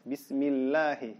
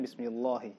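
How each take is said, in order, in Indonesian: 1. Bunyi 'l' dalam 'Allah' itu tipis. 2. Bunyi 'l' dalam 'Allah' itu tebal. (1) "maka dia dibaca tipis" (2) "tidak boleh"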